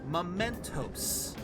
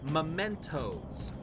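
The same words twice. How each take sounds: First: The final sound is a hissing s. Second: The final sound is a buzzing z. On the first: It is a name of its own, not a plural. "these guys are saying mementos" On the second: It is the plural of memento. "you usually pronounce the S as more of a Z"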